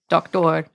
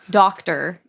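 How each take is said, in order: First: It is pronounced with a Spanish accent. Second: It is pronounced with an English accent. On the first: "In Spanish, it's doctor" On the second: "doctor in English"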